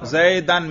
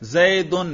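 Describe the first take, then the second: First: The ending is pronounced with an a vowel. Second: The ending is pronounced with a u vowel. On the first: The word is in the accusative case. "نصب" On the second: The word is in the nominative case. "رفع"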